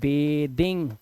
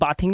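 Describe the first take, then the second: First: The first vowel is an 'ay' sound. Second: The first vowel is an open 'ah' sound. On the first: The speaker calls it right. "इसे बेदिंग बोलते हैं" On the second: The speaker calls it wrong. "इसे बाथिंग नहीं बोलते"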